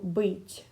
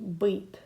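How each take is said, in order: First: The final consonant is soft, with a slight y-glide. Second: The final consonant is hard, with no y-glide. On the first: "if you had this little soft sign after it" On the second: "if you took the soft sign off of the the word"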